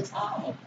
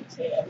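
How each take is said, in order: First: Tithe said properly with a long "tie" vowel and a th ending; correct tithe. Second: Tithe said short as "tith" with a short i, not the long "tie-th"; mispronounced tithe. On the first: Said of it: "No, it's a tithe". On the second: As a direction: say tithe wrongly like a new believer, short i sound. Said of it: "Oh, I thought it was a tithe". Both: Retold or imitated.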